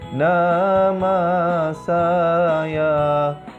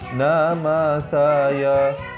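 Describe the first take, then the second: First: The vowels are lengthened. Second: The vowels are short. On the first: "pelajar akan belajar bacaan mad" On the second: "fathah seperti nama saya"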